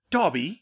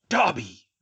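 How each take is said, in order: First: Sharp, loud cry of disbelief, pitched up at the end. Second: Loud, falling rebuke; hissed anger. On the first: Draco spots the elf, loud rising disbelief. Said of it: "he said in disbelief". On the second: Malfoy to his former elf, loud angry exclamation falling at the end. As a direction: spit the name out hard, pitch dropping. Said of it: "Mister Malfoy hissed". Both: A narrator's reading.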